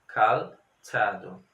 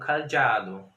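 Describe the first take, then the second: First: It is said with a ts-like sound. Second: It is said with a dz-like sound. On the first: The C with a small Z gave this reading. The speaker calls it right. "você sabia que a pronúncia devia ser T" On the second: Spelling with Z would give this reading. The speaker calls it wrong. "o Z, na época, resultaria numa pronúncia como cadeado"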